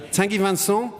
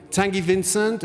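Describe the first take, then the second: First: "Tanguy Vincent" in a careful French accent, with "Vincent" ending on a nasal "-sɔ"; French pronunciation. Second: Said in the usual way. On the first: Shown as a demonstration. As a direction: say "Vincent" the French way, as "van-SOH" with a nasal first vowel and no final t or d. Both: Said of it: "I'm gonna do better with my French accent".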